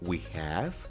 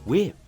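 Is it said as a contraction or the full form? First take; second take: full form; contraction. First: Both words are said fully and separately. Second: The words are joined into one short syllable. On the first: The speaker calls it wrong. "En vez de decir we have" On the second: The speaker calls it right. "mejor di we've"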